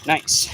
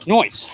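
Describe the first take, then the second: First: Said in the usual way. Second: "noise" for nice, with a Long Island oi vowel; Long Island accent, "noise" drawn out as oi. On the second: Shown as a demonstration. Long Island driver joking on his own accent, "noise". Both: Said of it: "Or should I say".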